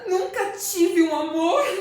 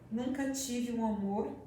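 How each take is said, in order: First: It is said in an excited, euphoric way. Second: It is said in a shy, ashamed way. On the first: "Para Cleci dizer isso eufórica" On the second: "esta fala envergonhada?"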